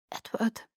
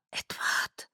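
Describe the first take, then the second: First: Soft, hesitant name with a slight crack; little catch in voice. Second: Hushed, breath-only whisper; whispered name. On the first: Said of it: "mit einem merkwürdigen kleinen Knacken in der Stimme". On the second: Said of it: "flüsterte ich". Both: A narrator's reading.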